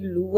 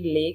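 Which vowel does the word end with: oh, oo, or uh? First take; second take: oo; uh. First: The word ends with an 'oo' vowel. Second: The word ends with an 'uh' vowel. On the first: "कभी लू आता है" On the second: "कभी ले कहते हैं लोग"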